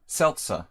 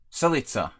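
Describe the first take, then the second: First: The name is said with two syllables. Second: The name is said with three syllables. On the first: The speaker calls it right. "It's just Celca" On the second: The speaker calls it wrong. "Not Celi. It's not even an I there"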